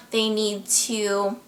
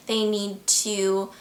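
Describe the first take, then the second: No difference in how they are said.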